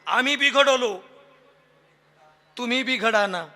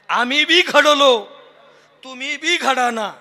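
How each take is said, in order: First: Bighadavlo is said as one joined word. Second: Bi and ghadavlo are said as separate words. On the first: We got spoiled, you be shaped too. The speaker calls it wrong. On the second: We too were shaped, you be shaped too. The speaker calls it right.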